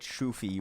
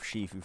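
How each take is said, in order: First: The vowels go oo then ee. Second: The vowels go ee then oo. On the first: The speaker calls it wrong. "I said Shufi once by mistake" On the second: The speaker calls it right. "instead of Shifu"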